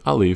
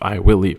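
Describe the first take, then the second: First: It is contracted and said in a relaxed way. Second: It is said fully and firmly, like a promise. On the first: The speaker is casually agreeing. "I'll leave is much more relaxed" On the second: The speaker is making a strong promise. "That's a very strong statement"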